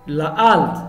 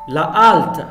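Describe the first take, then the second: The two takes are said the same way.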